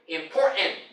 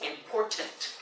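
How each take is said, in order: First: The t sounds are dropped. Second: The t sounds are pronounced. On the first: The speaker calls it wrong. "Dropped two sounds from it, the T's" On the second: The speaker calls it right. "Take that split second to get the extra words out"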